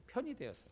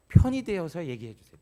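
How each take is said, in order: First: "편이 되어서" repeated higher and much softer; hushed, lifted repeat; soft echo. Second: 편이 punched much louder, falling tune; loud urging on 편이; emphasis on 편이. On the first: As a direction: echo 편이 되어서 gently, as a quiet reminder. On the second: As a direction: hit 편이 hard as a plea. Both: Shown as a demonstration.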